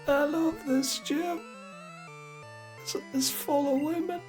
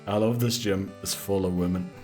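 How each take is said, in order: First: It is said in a creepy old-man voice. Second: It is said in his normal voice.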